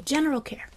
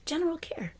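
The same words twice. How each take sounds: First: Said in the usual way. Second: Breathy whispered "General care", drifting off; soft whispered "General care"; whispered repeat. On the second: Shown as a demonstration. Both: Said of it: "Just general care".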